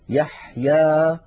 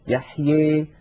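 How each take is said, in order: First: The final vowel is a clear open 'a'. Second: The final vowel leans strongly toward 'ee'. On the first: "فتحا وسطا، ليس لا فتحا مبالغا فيه ولا فتحا مخلوطا بياء" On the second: "فيخلط صوت الألف بصوت الياء أكثر من هذا"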